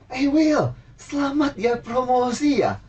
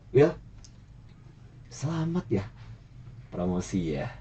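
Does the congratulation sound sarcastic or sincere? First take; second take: sincere; sarcastic. First: The congratulation is said in a warm, positive tone. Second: The congratulation is said in a snide, sarcastic tone. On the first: The speaker is genuinely happy about the promotion. "Yang kedua itu lebih positif" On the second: The speaker is mocking the promotion. "Yang pertama itu nyinyir ya"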